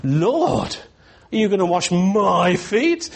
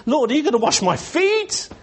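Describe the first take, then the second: First: "Lord" rising like a question, "my" stretched, "feet" lifted high; stress on MY. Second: Quicker run from a high "Lord" to "feet" pitched right up; whole question high, punch "feet" at the top; stress on FEET. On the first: Preacher testing Peter's emphasis, incredulous weight on "my". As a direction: lean hard on "my", end high on "feet". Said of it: "What is the emphasis?". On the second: Preacher testing Peter's emphasis, high-pitched question landing on "feet". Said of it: "What's the emphasis?". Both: Shown as a demonstration.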